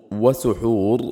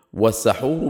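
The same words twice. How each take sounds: First: وسحور with a short "u" after س, "suhur"; damma vowel. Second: والسحور with a short "a" after س, "sahur"; fatha vowel. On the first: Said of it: "بالضم". (وسحور بضم السين) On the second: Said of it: "بالفتح". (والسحور بفتح السين) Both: Shown as a demonstration.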